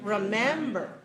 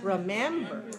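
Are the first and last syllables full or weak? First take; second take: weak; weak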